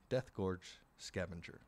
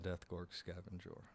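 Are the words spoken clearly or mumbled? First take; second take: clear; mumbled. First: Each word is clearly and carefully enunciated. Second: The words are slurred together and mumbled. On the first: The speaker calls it right. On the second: The speaker calls it wrong.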